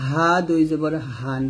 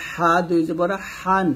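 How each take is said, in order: First: Said in the usual way. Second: হা and হান with a tight, pressed throat h; constricted h in হা. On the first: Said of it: "এটা normal বলতে হবে". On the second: Shown as a demonstration. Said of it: "এটা চাপ দিয়ে বলতে হবে".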